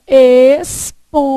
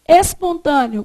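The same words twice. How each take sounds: First: "espontâneo" drawn out, a pause after each syllable. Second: Said in the usual way. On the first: Shown as a demonstration. Teacher shows how to divide it, syllable by syllable. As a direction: split "espontâneo" slowly as es, pon, tâ, neo. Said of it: "Se você fizer". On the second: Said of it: "como é que vai fazer?".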